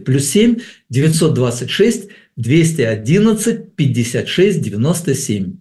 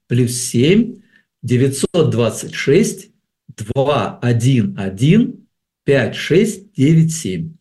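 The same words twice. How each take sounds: First: The number is read at a quicker pace. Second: The number is read at a slower pace.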